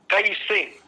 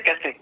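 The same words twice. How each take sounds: First: कैसे with a clear "ai" glide; correct कैसे. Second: कैसे flattened to "kese"; common कैसे. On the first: Shown as a demonstration. Teacher showing the pure कैसे to students. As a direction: say कैसे as "kaise", not "kese". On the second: Retold or imitated. Teacher imitating how people say कैसे. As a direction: say कैसे with a plain e, no glide. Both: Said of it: "लेकिन हम क्या बोलते हैं".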